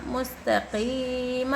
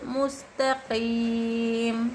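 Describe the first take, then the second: First: मुस्तक़ीम with a long ee and an added short "ma" at the end; final vowel voiced. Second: मुस्तक़ीम with a long held ee, closed on a silent-vowel m; stopping on jazm. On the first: Teacher joining the final letter in मुस्तक़ीम, vowel sounded. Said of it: "मीम ज़बर मा". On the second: Teacher showing where to break breath, मुस्तक़ीम ending on m. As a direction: draw out मुस्तक़ीम and stop dead on the m. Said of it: "जज्म देकर सांस तोड़ना चाहिए". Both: Shown as a demonstration.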